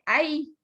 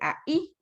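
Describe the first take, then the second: First: The two vowels blend into one syllable. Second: The two vowels are split into two syllables. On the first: "allá dije ahí" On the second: "aquí dije ahí"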